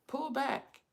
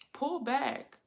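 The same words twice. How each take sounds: The two takes are said the same way.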